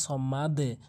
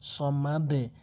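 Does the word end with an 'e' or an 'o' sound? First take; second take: e sound; e sound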